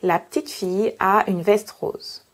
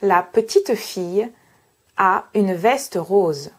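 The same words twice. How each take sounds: First: Most of the e sounds are dropped. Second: Most of the e sounds are pronounced. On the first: "Si je prononce avec un accent standard" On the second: "si je suis dans le sud de la France"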